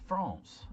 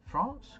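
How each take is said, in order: First: Said in the usual way. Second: "France?" shot up high with a sharp rising end; disbelieving "France?", as if that can't be right; squeaky astonished "France?"; incredulous. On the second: Real, not acted. Doubting the guess just made.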